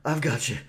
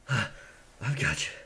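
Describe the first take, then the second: First: Said in the usual way. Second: Much softer, slow and tender; soft reassurance. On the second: Acted. Pirate comforting his wounded friend, soft and tender. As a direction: hold him gently and calm him.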